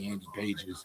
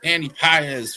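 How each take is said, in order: First: The surname sounds like the English word pages. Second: The surname does not sound like pages. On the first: The speaker calls it wrong. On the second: The speaker calls it right.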